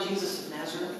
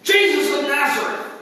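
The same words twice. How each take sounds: First: The name is asked meekly and hesitantly. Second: The name is called out boldly and loudly. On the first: The soldier has been humbled and is now wary. "You think this time is like, could we please find" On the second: The soldier is confident and commanding. "this big old Roman centurion comes in"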